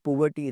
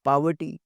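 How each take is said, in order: First: "poverty" said with an o sound, as pov-ver-ty; the mispronounced "poverty" students should avoid; wrong pronunciation. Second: "poverty" said with a short a-like first vowel, pa-ver-ty; correct pronunciation. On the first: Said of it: "it's not poverty". ("poverty" का गलत उच्चारण, ओ की आवाज़ के साथ) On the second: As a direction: model the right "poverty" for the class. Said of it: "it's poverty". ("poverty" का सही उच्चारण, पहले स्वर को छोटा रखकर) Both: Shown as a demonstration.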